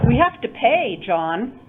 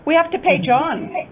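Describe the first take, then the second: First: It is split into two intonation units. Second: It is said as one intonation unit. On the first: "You were correct, two"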